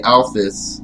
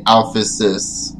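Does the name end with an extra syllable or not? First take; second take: no extra; extra syllable. First: The name ends without an added syllable. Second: The name ends with an added syllable. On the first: The speaker calls it wrong. "but that's not really true" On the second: The speaker calls it right. "So Alphys would be Alphysis"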